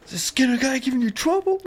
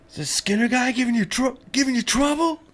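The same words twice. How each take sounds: First: Very high, fast squeaky mob voice; mobster quote. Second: Very high squeaky mob guy voice; mobster quote. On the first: Quoting the heavy guy from the Simpsons, very high fast voice. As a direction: rush it high like a cartoon heavy. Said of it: "the heavy guy or whatever is like". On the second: Quoting the mob guy from the Simpsons, very high squeaky voice. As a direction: squeak it out like a cartoon heavy. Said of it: "The Dubs always says the line". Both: Retold or imitated.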